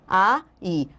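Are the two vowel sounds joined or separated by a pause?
separated. The two vowels are separated by a pause. "Quando eu falo A, I, eu dou uma pausa"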